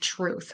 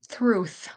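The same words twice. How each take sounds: First: The word begins with a t sound. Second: The word begins with a th sound. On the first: The speaker calls it right. "instead of truth" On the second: The speaker calls it wrong. "they'll put the T H where the T should be"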